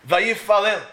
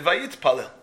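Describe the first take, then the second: First: VAYIFALEL with a plain F, no T sound; stated firmly with the T missing; said without the T. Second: VAYITPALEL with a T before the P; lower, corrected form with T-P in the middle. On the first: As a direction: say "Vayifalel", leaving out the Taf. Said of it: "missing? The letter Taf". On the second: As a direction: sound the Taf in "Vayitpalel". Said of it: "Should have said". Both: Shown as a demonstration.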